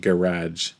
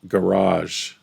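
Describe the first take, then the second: First: It is said the Canadian way. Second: It is said the Californian way. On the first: "and I would say garage" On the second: "when I was in California one time, the word garage was a word they said"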